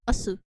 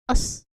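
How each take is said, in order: First: The final u vowel is fully pronounced. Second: The final u vowel is dropped. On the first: The speaker calls it wrong. "not asu" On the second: The speaker calls it right. "pronounced us"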